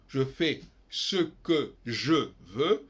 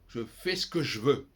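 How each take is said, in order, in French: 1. Tous les E instables se prononcent. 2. Les E instables tombent entre deux consonnes.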